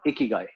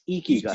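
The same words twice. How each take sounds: First: The first vowel is a short 'i' sound. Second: The first vowel is a long 'ee' sound. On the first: The speaker calls it wrong. "not not Ikigai" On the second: The speaker calls it right. "It's Ikigai"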